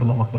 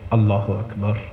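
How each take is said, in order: First: It is rattled off quickly without attention. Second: It is said slowly and attentively, like talking. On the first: The speaker is not attending to God at all. The speaker calls it wrong. "ऐसे नहीं ... वो तो तवज्जो ही नहीं हुई" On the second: The speaker is truly attending to God. The speaker calls it right. "पूरी तवज्जो से, ऐसे जैसे किसी से बात कर रहा हूं"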